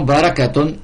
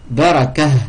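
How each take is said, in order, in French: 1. Le mot se termine par un 't' et 'un'. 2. Le mot se termine par un 'a' bref. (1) "Quand on fait la liaison" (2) "Quand on s'arrête dessus"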